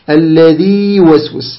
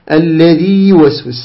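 First: The long vowel is held with natural lengthening. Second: The same.

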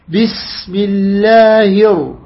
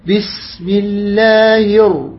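The two takes are said the same way.

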